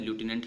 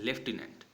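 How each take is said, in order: First: The first syllable sounds like 'loo'. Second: The first syllable sounds like 'lef'. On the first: "American English में इसको जैसा लिखा जाता है वैसा ही पढ़ा जाता है" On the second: "ब्रिटिशर्स क्या बोलते हैं, इस वर्ड को लेफ्टिनेंट बोलते हैं"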